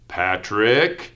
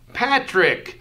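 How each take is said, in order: First: The name is said in a stern, scolding tone. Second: The name is said brightly, with excitement. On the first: The listener is in trouble. "I think I'm in trouble" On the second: The speaker is glad to see the listener. "you're excited to see me"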